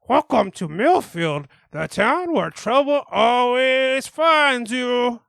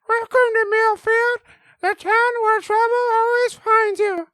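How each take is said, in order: First: It is said in a normal voice. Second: It is said in a very high voice.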